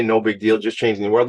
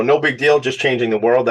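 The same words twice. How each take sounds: First: "No big deal" said dry and level at normal pitch; same joke, played down and even; deadpan repeat of the catchphrase; understated tongue in cheek. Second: Playful fake nonchalance; tongue in cheek. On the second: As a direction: toss it off like it's nothing, pitch up. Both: Shown as a demonstration. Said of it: "That's tongue in cheek".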